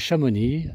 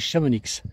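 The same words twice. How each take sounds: First: The final x is silent. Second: The final x is pronounced. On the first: The speaker calls it right. "Non, c'est Chamonix" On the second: The speaker calls it wrong. "certains disent Chamonix"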